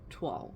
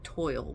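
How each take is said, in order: First: The word does not sound like 'toil'. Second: The word sounds like 'toil'. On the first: The speaker calls it right. "it's pronounced toile" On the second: The speaker calls it wrong. "it looks like it should be pronounced like toil with a silent E"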